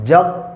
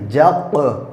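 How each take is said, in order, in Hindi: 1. अंतिम व्यंजन बिना झटके के बंद होकर रुक जाता है। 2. अंतिम व्यंजन एक झटकेदार गूँज के साथ छूटता है। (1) "ऐसे नहीं" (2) "उसकी आवाज़ टक्कर खा के अलग हो गई"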